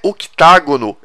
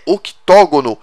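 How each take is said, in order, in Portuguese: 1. A vogal depois de 'oct' tem som de 'a'. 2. A vogal depois de 'oct' tem som de 'o'. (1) "É errado falar octágono" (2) "oito lados é octógono"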